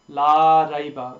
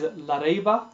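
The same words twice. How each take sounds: First: The vowel is held long. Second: The vowel is cut short. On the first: The speaker calls it right. "That is correct" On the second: The speaker calls it wrong. "the mistake made is shortening it"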